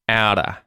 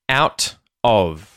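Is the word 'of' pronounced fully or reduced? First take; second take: reduced; full. First: The T is flapped and 'of' shrinks to a schwa. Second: Both words are pronounced fully and separately.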